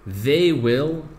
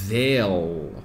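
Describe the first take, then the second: First: Both words are said fully and separately. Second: The two words merge into one short syllable.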